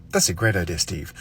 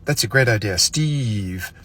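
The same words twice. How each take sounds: First: Name said quickly. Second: "Steve" said slowly with a pause after "idea"; name dragged out. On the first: Complimenting Steve, name said quickly. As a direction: rattle off "Steve" right after the compliment. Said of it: "say somebody's name as quickly as possible". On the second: Complimenting Steve, name said slowly. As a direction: let "Steve" hang, slow and deliberate. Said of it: "But if you say". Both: Shown as a demonstration.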